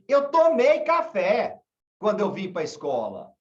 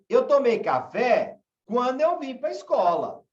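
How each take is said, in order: First: The sentence has a plain, neutral intonation. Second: The sentence has a changed, marked intonation. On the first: The coffee was had before arriving, so the belly is full. "Se eu falo para você assim" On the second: The coffee was had on arriving, so the belly was empty. "se eu mudo a minha entonação e falo assim"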